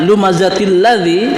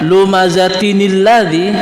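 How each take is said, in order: First: No linking n sound joins the two words. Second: A linking n sound joins the two words. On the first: The speaker calls it wrong. "kok tidak dibaca" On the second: The speaker calls it right. "Kenapa dibaca lumazatinil ladzi"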